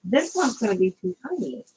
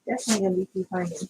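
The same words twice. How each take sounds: First: Said in the usual way. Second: Rattled off fast under the breath; tossing off the verdict quickly; rushed repeat. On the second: Real, not acted. Crafter dismissing a too-tiny palm maker, fast.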